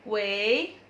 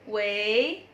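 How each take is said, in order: The two takes are said the same way.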